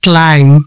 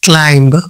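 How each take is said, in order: First: The final b sound is silent. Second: The final b sound is pronounced. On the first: The speaker calls it right. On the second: The speaker calls it wrong.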